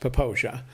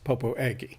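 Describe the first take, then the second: First: It is said with three syllables, ending 'zha'. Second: It is said with four syllables, ending 'agee'. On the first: The speaker calls it right. "It's pronounced Poposia" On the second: The speaker calls it wrong. "is not pronounced Popo Agie"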